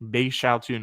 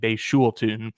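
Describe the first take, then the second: First: The second syllable sounds like 'shao'. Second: The second syllable sounds like 'shul'. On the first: The speaker calls it right. "according to the pronunciation guide in front of me" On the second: The speaker calls it wrong. "I've definitely been saying"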